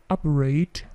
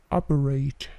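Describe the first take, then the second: Both takes have the same delivery.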